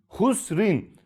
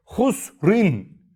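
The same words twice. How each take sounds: First: Said in the usual way. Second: "Husrin" recited in tajweed style with the r stopped; Kur'an okur gibi "Husrin", sondaki r cezimli; Quranic recitation. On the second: Shown as a demonstration. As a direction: chant "Husrin" as in Quran reading, ending on a stopped r. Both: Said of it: "durak işareti olduğu için".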